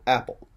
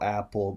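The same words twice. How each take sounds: First: The stress is on the first syllable. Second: Both syllables get the same stress. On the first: The speaker calls it right. "we're going to get that first syllable of the two syllable noun with accent" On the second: The speaker calls it wrong. "apple with the same accent"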